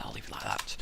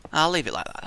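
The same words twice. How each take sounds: First: Whispered to himself, much softer. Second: Said in the usual way. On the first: Real, not acted. Builder muttering to himself, a soft whisper. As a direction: breathe it like a secret.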